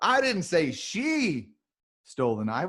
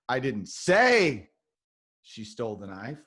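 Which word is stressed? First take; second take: she; say. First: The stress is on the word she. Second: The stress is on the word say.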